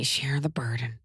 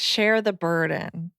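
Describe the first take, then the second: First: Whispered, menacing echo; sinister whisper. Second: Sly suggestion. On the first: Retold or imitated. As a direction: whisper it like a villain. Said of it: "That's mean". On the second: Pretend.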